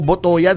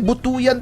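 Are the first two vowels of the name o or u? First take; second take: o; u. First: The first two vowels sound like o. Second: The first two vowels sound like u. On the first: The speaker calls it wrong. "baka daw Botoyan" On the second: The speaker calls it right. "hindi, Butuyan talaga"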